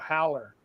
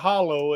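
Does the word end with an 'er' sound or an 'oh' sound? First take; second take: er; oh. First: The word ends with an 'er' sound. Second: The word ends with an 'oh' sound. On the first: "it's a howler" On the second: "it's not a hollow"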